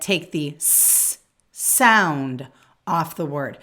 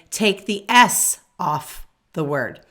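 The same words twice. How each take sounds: First: "sound" stressed, slow and deliberate. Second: Said in the usual way. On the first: Shown as a demonstration. Teacher contrasting "S" with "s sound" for new teachers, stressing sound. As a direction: lean on the word "sound". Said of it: "I said". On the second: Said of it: "I didn't say".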